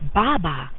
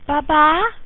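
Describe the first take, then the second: First: It is said flatly, like a plain statement. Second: It is said with a questioning, rising tune. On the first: That is a bottle. "that's a bottle" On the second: Where is my bottle? "where is my bottle?"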